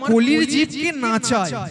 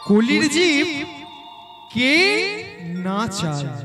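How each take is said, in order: First: Jib and ke run together as one word. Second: A break separates jib from ke. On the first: He makes the beings of this age dance. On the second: It asks who makes the beings of this age dance.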